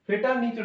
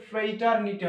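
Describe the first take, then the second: First: ফ্রেটারনিটি as "fe-tar-ni-ti", short first vowel, no r; mistaken pronunciation. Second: ফ্রেটারনিটি as "frei-tar-ni-ti", r after the f; corrected pronunciation. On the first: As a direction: say ফ্রেটারনিটি with a plain "fe" at the start. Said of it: "ফ্রেটারনিটি নয়". (ফ্রেটারনিটি ভুল করে "ফেটারনিটি" উচ্চারণে) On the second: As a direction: open ফ্রেটারনিটি with a gliding "frei". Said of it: "actually এটা উচ্চারণ হচ্ছে". (ফ্রেটারনিটি শুদ্ধ করে "ফ্রেইটারনিটি" উচ্চারণে) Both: Shown as a demonstration.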